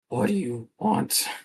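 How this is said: The voice is raspy, like a smoker's.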